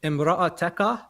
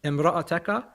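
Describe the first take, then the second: First: The vowel after the 't' is 'a'. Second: The vowel after the 't' is 'a'.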